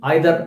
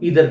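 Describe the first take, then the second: First: It is said with a British pronunciation. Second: It is said with an American pronunciation.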